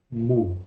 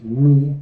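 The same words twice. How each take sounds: First: "mu" said the ancient way, with an oo vowel; ancient Greek pronunciation. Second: "Mui" said the modern Greek way, with an ee vowel; modern Greek pronunciation. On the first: Teacher models the old letter name for class, ancient Greek pronunciation. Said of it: "La pronunciación antigua será mu". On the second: Teacher gives students the modern name of the letter, modern Greek pronunciation. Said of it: "corresponde más al griego moderno". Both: Shown as a demonstration.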